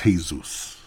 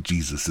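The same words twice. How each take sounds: First: "Jesus" as Spanish hay-SOOS; Spanish pronunciation. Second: "Jesus" as English JEE-zus; English pronunciation. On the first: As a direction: say "Jesus" with an H sound, ending in -soos. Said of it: "It's pronounced Jesus. It's Jesus". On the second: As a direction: say "Jesus" with a soft J and long ee. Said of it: "common misconception. It's pronounced Jesus". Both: Shown as a demonstration.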